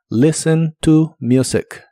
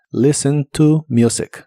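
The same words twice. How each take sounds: First: "Listen to music" slowly, no t in listen; "Listen to music" with music as mjusik, slow; slow model phrase. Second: "Listen to music" said slowly, silent t; "Listen to music" carefully, music with u; slow model phrase. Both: Shown as a demonstration. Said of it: "La T de listen no se pronuncia".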